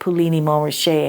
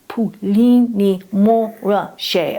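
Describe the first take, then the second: First: The name is said with an anglicized pronunciation. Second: The name is said with a French-sounding pronunciation. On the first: The speaker calls it wrong. "I'd say like" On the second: The speaker calls it right. "no, Ursula, it's"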